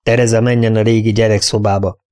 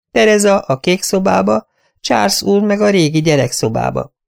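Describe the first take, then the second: First: A firm, level correction; interrupting firmly. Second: High, anxious, eager-to-please; nervous little voice, pitched well up; timid companion voice. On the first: Mistress overruling her companion's plan, firm and level. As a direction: cut her off and set it straight. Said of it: "szakította félbe". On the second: Companion listing room plans to her mistress, high and anxious. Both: Acted.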